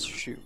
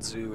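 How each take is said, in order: First: The name begins with a sh sound. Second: The name begins with a z sound. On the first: The speaker calls it right. "it's Shu" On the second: The speaker calls it wrong. "it's not Zoo"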